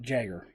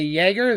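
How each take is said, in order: First: The word begins with a J sound. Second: The word begins with a Y sound. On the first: The speaker calls it right. "I respect the letter J. I will pronounce it Jagger" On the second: The speaker calls it wrong. "some people say Jaeger. There is no Y at the beginning of that"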